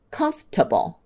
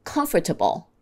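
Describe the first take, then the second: First: "comfortable" as comf-ta-ble; fewer syllables. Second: "Comfortable" as com-fer-ta-ble; all syllables. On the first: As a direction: drop the "or" from "comfortable". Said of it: "say it with fewer syllables". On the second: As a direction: sound the "for" in "Comfortable". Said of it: "Let's do a couple more". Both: Shown as a demonstration.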